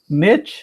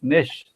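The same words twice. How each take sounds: First: It is said the American way. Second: It is said the Australian way. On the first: "if you are from U S and Canada" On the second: "if it's from Australia and New Zealand, probably it's niche"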